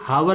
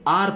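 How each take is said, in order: First: The word starts with an h sound. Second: The word starts with a vowel, no h. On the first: The speaker calls it wrong. "बहुत से भाई हमारे हावर पढ़ते हैं, जो कि गलत है" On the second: The speaker calls it right. "तो ये आर पढ़ा जाता है"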